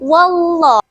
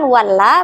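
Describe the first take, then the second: First: The L in Allah is pronounced thick. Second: The L in Allah is pronounced thin. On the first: The speaker calls it right. "harus dibaca secara tebal, melainkan wallah" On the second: The speaker calls it wrong. "bukan walla"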